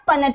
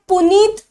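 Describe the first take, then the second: First: It is said like puh-net, with a short vowel. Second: It is said like poo-neet, long second vowel. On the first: The speaker calls it right. "प्यूनेट square और पनेट square" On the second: The speaker calls it wrong. "इसे पुनीत pronounce नहीं करेंगे हम"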